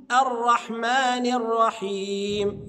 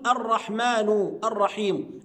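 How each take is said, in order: First: "الرحمن الرحيم" recited slowly as ar-rahmani r-rahim; correct, drawn-out "الرحمن الرحيم", nun with kasra. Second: "الرحمن الرحيم" with a u ending on each word; wrong vowel endings. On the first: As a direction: join "الرحمن الرحيم" with an i, long final vowel held. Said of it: "النون مكسورة والرحيم مكسورة". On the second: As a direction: say "الرحمن الرحيم" as ar-rahmanu ar-rahimu. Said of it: "بعض الناس ينطقها خطأ". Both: Shown as a demonstration.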